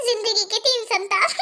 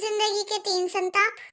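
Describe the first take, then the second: First: life के तीन संताप said slowly with a laugh; amused, slow aside; wry laughing remark. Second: A quieter, slower, lower echo of संताप; low teasing repeat of the line; sly mocking echo. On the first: Acted. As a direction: chuckle through जिंदगी के तीन संताप. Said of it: "सब समझ में आ रहा है मुझे". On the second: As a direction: echo the phrase back softly, teasing. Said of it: "सच ही तो बोल रही हो तुम".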